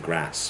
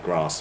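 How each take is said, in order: First: Grass with a short front "a" as in cat; short-vowel grass. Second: Grass with a long back "ah" vowel. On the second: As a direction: say grass as "grahss". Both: Shown as a demonstration. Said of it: "more than one possible pronunciation".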